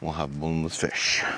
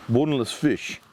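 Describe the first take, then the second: First: Said in the usual way. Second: BONELESS pitched up, falling on fish; playful emphatic repeat. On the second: Real, not acted. Camper savouring the dish name, playful emphatic repeat. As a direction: lift BONELESS high, then drop on fish.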